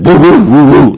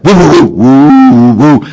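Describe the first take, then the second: First: High, loud barking woofs, each falling; imitated dog bark. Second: High, loud barking woofs that rise; imitated dog bark. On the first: Dog asking its owner for a car ride, loud falling woofs. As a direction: woof like an eager dog begging. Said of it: "I want to be taken for a car ride". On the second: Dog begging its owner for dinner, loud rising woofs. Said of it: "Please cook me and serve me dinner".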